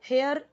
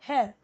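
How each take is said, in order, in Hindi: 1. अंतिम r ध्वनि ज़ोर से बोली जाती है। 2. अंतिम r ध्वनि छोड़ दी जाती है। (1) "हेयर नहीं बोलना है" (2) "हेयर ओके, र लास्ट तक नहीं बोलना है"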